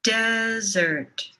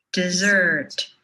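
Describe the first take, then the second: First: "desert" with a long, held "DES"; first-syllable stress. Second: "dessert" with a long, held "SSERT"; second-syllable stress. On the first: Teacher leading repeat-after-me, long first-syllable stress on "desert". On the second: Teacher leading repeat-after-me, long second-syllable stress on "dessert". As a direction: stretch the last syllable of "dessert". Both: Shown as a demonstration. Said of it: "say these words with me".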